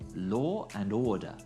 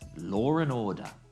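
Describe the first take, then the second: First: No r sound is heard after law. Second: An r sound links law and and.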